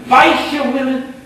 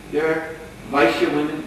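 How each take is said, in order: First: High, loud, scandalized echo of the word; indignant disbelief. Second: Said in the usual way. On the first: Acted. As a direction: fling it back in shocked contempt. Brahmin girl scoffs at cowherd women.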